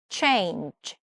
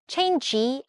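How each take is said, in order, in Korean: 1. 이 단어는 숨이 섞인 J 소리로 끝나요. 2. 이 단어는 센 G 소리로 끝나요. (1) "change 이렇게요" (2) "change 아니고 그건 찍찍 G이죠"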